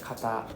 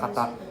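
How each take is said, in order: First: The word is said lightly, its syllables kept apart. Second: The word is said with heavy, forceful stress. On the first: The speaker calls it right. "We just separate the T and the A" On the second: The speaker calls it wrong. "we don't don't need to stress, right? Don't need to say oh kata kata"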